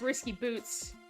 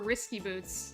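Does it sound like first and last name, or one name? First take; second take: first and last; one name. First: It is said as a first and last name. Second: It is said as one single long name. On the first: "as if Boots is her last name" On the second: "as if it's like one long name"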